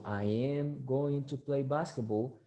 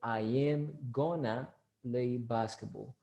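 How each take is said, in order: First: Each word of 'going to' is said in full. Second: 'Going to' is squeezed together into 'gonna'. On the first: "So you're going to say" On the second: "gonna is the contraction of going to"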